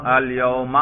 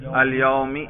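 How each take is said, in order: First: الیوم with a final -a; accusative ending demo. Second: الیومی with a final -i; genitive ending demo. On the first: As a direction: pronounce الیوم as "al-yauma", ending on a. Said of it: "نصب پہ کریں". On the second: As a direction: pronounce الیومی as "al-yaumi", ending on i. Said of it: "جار پہ ذرا تلفظ کریں". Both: Shown as a demonstration.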